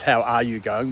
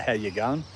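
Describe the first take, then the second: First: Each word said separately in "How are you going?"; "How are you going?" with every word sounded; full words spoken out. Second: "How you going?" run together casually; "How you going?" with the "are" dropped; casual run-together form. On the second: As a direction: slur "How you" into one easy Aussie greeting, "How you going?". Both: Shown as a demonstration. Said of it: "We say".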